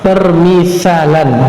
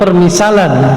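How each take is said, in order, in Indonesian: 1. Konsonan di tengah itu bunyi th cadel. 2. Konsonan di tengah itu bunyi s biasa.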